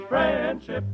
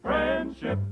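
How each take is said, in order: Both takes have the same delivery.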